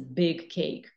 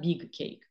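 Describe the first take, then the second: First: The vowel in big sounds English. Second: The vowel in big sounds Azerbaijani. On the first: The speaker calls it right. "This is a big cake" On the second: The speaker calls it wrong. "It's not big cake, okay?"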